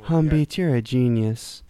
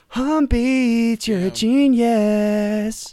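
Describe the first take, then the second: First: The phrase is said at a normal, calm volume. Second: The phrase is yelled loudly. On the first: The speaker calls it wrong. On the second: The speaker calls it right.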